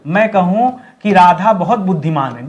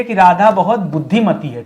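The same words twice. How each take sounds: First: Said in the usual way. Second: बुद्धिमती stressed as the corrected word; correct feminine form. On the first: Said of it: "गलत हो जाएगा". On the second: Shown as a demonstration. Teacher giving students the corrected sentence. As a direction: lean on बुद्धिमती. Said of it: "क्या बोलना चाहिए".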